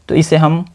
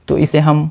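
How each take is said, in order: Both takes have the same delivery.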